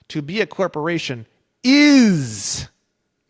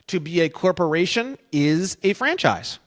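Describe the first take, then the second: First: The word is is strongly stressed. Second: It is read plainly with no special stress.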